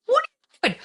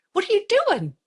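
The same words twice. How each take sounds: First: Much higher, louder, crying shriek; mock crying wail. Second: Much higher, self-scolding yelp; high mock panic. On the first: Mom scolding herself over the concert, crying wail. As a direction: break into a mock sob on it. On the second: Mom to herself in the parking-lot plan, high panicked yelp. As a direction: shriek at herself in disbelief. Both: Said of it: "I'm like".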